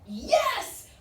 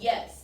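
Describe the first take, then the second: First: The word sounds cheerful and welcoming. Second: The word sounds annoyed and exasperated. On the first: The writer is happily inviting the asker home. "we're having chicken fried steak tonight. Come on home" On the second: The asker is bothering the writer by asking again. "like, good grief, it's ready. Why do you have to keep asking me?"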